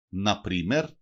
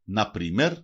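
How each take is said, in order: Both takes have the same delivery.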